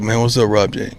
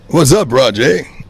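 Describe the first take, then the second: First: It is said in a relaxed, natural way. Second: It is said in a stiff, put-on way.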